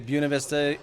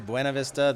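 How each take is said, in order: First: It is pronounced the way locals say it. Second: It is pronounced the way outsiders say it. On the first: The person saying it lives there. "you know they're local" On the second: The person saying it is from out of town. "we're going to charge you more"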